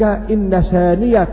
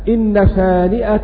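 First: The middle consonant is a y sound. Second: The middle consonant is a glottal stop.

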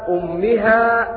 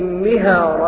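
First: The word begins with a 'u' vowel. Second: The word begins with an 'i' vowel. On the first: The reader starts fresh after a stop. "فيبدأ بالهمزة مضمومة فيقرأ هكذا" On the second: The word is joined to the word before it. "قرأ بكسر"

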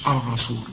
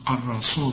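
Both takes have the same delivery.

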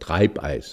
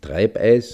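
First: The ei vowel has the standard German sound. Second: The ei vowel has a regional dialect sound. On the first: The speaker calls it right. "das Hochdeutsche, also dass man dann das EI anders ausspricht" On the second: The speaker calls it wrong. "nicht Treibeis"

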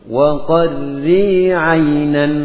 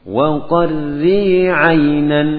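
No difference in how they are said.

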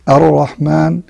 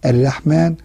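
First: The r is heavy and full. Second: The r is light and thin. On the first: The speaker calls it right. "الراء تكون مفخمة إذا كانت مفتوحة" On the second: The speaker calls it wrong. "ما نقولش"

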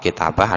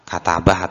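First: The first vowel is an 'i' sound. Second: The first vowel is an 'a' sound. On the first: "Ada yang membaca kasroh" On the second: "ada yang membaca juga katabah atau fathah"

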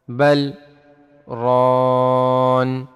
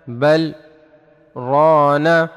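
First: The last word ends on a consonant, no vowel. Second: The last word ends with a short a vowel. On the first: "وفي حال الوقف" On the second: "نون فتحة نا"

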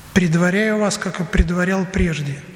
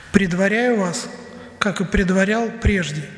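The two takes are said the same way.

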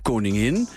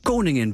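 First: The stress is on the last syllable. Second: The stress is on the first syllable. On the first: "Klemtoon om de laatste lettergreep" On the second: "toen verschoven één klap de klemtoon naar voren"

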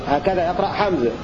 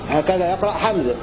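The two takes are said the same way.

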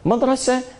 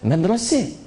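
First: The final vowel is an open 'a' sound. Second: The final vowel is shifted toward an 'e' sound. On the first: "Antum ucapkan A" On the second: "dia bilang E"

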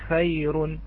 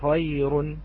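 First: The first consonant sounds light, with a lowered tongue. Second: The first consonant sounds heavy, with a raised tongue. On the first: "نلاحظ أنه ينزل باللسان فيكون عنده مرقق" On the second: "عندما يرتفع اللسان فيقول خير غني بهذه الطريقة سوف يفخم الحرف"

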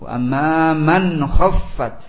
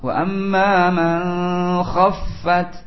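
First: The n sound before kh is pronounced clearly. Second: The n sound before kh is hidden and nasalized. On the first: The speaker calls it right. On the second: The speaker calls it wrong.

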